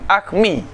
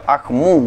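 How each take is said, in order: First: The vowel after the m is i. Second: The vowel after the m is u. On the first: "Wa kasriha kasrah mim" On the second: "min dhammiha daripada dhamma-dhamma mim"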